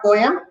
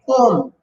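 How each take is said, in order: First: The word is said with two syllables. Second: The word is said with one syllable. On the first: The speaker calls it wrong. "not poem" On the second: The speaker calls it right. "P O M"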